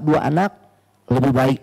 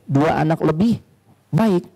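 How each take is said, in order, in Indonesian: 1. Tidak ada jeda antara lebih dan baik. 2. Ada jeda antara lebih dan baik. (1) "kalau cara bacanya salah" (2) "komanya dua anak lebih koma baik"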